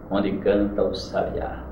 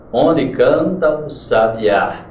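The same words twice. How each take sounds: First: Said in the usual way. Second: Very slow, landing hard on the final "á" of "sabiá"; marked syllable stress. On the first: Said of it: "Veja como é bem a Canção do Exílio". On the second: Shown as a demonstration. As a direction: stretch the line and hit "sabiá" on its last syllable. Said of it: "para você perceber a tonicidade". (bem devagar, acentuando o "á" final de "sabiá")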